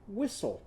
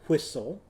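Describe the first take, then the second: First: It begins with a plain 'w' sound. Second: It begins with a breathy, blown 'hw' sound. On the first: "all I did was Winky Walrus's sound" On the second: "Some people say whistle"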